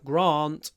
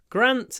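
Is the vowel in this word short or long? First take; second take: long; short. First: The vowel is long, as in 'father'. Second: The vowel is short, as in 'cat'.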